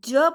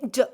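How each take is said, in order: First: ज held long with its whole vowel; drawn-out ज. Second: ज as one quick consonant sound, not the full syllable; short phonics ज. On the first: Teacher showing children the ज to avoid, drawn out in full. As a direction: say ज as a full, stretched, loud syllable. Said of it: "ज पूरा नहीं बोलना". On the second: Teacher modelling the ज sound for a child, very short. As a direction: cut ज off short, barely any vowel. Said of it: "पूरा नहीं बोलना, कैसे प्रोनाउंस करोगे". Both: Shown as a demonstration.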